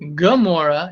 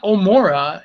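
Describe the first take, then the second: First: The word begins with a throaty consonant sound. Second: The word begins with a plain vowel sound. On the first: The speaker calls it right. "it's Gomorrah" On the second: The speaker calls it wrong. "it's not Omora"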